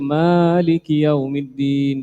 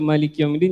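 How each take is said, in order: First: The first vowel of Maliki is held long. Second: The first vowel of Maliki is held short. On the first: God is the owner of the Day of Judgement. The speaker calls it right. "dua harakat" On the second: God is the king of the Day of Judgement. The speaker calls it wrong. "kalau kita baca Maliki Yaumiddin jadi salah"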